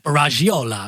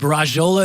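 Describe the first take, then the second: First: The name is said with an Italian-style accent. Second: The name is said with an American accent. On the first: "if you're gonna go like Argentine or Italian" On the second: "the English way, the American way"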